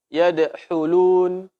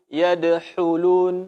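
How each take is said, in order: No difference in how they are said.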